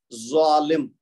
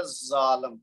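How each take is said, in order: First: ظالم۔ with a thick, rounded zoa, almost "zwaalim"; heavy Z (zoa). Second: ظالم، with a thin, buzzing za and open "aa"; light Z (za). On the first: Teacher shows students the zoa sound, heavy Z in ظالم۔. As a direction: hit ظالم۔ louder with an emphatic, full-mouthed Z. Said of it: "یہ ظا ہے". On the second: Teacher warns of the meaningless word, light Z in ظالم،. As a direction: say ظالم، with a plain, unthickened Z. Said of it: "ہم زا کے ساتھ ادا کریں گے". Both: Shown as a demonstration.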